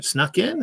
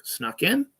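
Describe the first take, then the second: First: Snuck in? rising high at the end, no sarcasm; genuine question. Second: Snuck in? asked with a rising tune; sincere, puzzled Snuck in?, not sarcastic; genuine question. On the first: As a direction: ask Snuck in? in honest puzzlement. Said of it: "He wasn't being sarcastic". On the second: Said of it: "It was a question". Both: Retold or imitated.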